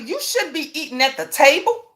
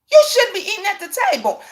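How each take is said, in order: First: Said in the usual way. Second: Higher, quicker, near tears; emotional repeat. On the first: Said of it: "repeated with emphasis". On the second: Real, not acted. Mother insisting on her rule, voice cracking. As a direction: push it out as feeling breaks through. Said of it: "repeated, voice breaking".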